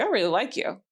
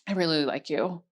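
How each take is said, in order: First: It is said plainly and confidently. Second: It is said hesitantly, seeking approval.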